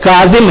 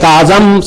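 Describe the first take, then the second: First: The last syllable has an 'i' vowel. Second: The last syllable has an 'a' vowel. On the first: The speaker calls it right. "काजिम है" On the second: The speaker calls it wrong. "नहीं है"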